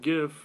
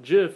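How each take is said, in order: First: The word begins with a hard G sound. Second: The word begins with a J sound. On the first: This is how the speakers themselves say it. "we pronounce it GIF" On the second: This is how longtime industry people say it. "we hear GIF and we want to just get bread and put it, put it on the bread"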